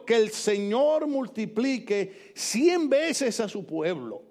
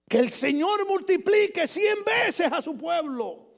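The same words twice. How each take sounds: First: Slow, savoring each word; elegant reading. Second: Slow, higher ringing shout; proclaimed. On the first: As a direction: relish the phrase slowly. (lectura elegante y pausada) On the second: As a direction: proclaim it with relish. (proclamación lenta y fuerte) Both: Shown as a demonstration. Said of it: "Mire qué elegancia".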